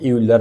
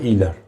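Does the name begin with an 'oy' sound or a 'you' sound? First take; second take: you; oy. First: The name begins with a 'you' sound. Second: The name begins with an 'oy' sound. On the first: The speaker calls it wrong. "यूलर हम बोलते हैं" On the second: The speaker calls it right. "मगर ठीक है"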